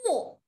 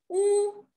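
First: The pitch falls sharply from high to low. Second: The pitch stays high and level.

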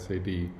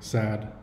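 First: It is spelled out letter by letter. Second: It is said as one word. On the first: "some people might prefer you to say SAD" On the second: "You can say sad"

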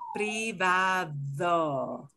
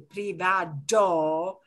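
First: The d is a soft, mushy sound. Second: The d is a hard, stopped sound. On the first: The speaker calls it right. "it'll be softish. It'll be mushy D" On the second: The speaker calls it wrong. "It won't be a privado"

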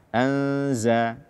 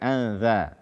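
First: The consonant is a buzzing z sound. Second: The consonant is a soft voiced th sound. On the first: The speaker calls it right. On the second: The speaker calls it wrong.

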